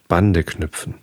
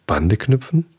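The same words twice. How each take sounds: First: Said in the usual way. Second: "Bande knüpfen" lifted into a rising question; questioning echo. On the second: A narrator's reading. Little prince asks the fox what "Bande knüpfen" means, questioning.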